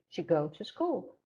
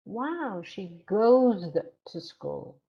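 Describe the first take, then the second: First: Quick, plain bare GO; student's error. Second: Impressed echo with GOES held long and louder; slow down and swell on GOES; stress on goes. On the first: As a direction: GO without its S, unstressed. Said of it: "your student said". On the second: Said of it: "Put stress on that word". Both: Shown as a demonstration.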